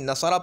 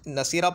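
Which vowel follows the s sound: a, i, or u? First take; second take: a; i. First: The middle consonant carries an a vowel. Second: The middle consonant carries an i vowel. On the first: "आइन कलीमा मफतूह लेकर आते हैं" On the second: "मकसूर लेकर आते हैं"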